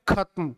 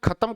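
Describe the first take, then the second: First: The word is said in its standard form. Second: The word is said in its everyday colloquial form. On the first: The speaker calls it right. "शुद्ध क्या है?" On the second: The speaker calls it wrong. "और हम बोलते क्या है?"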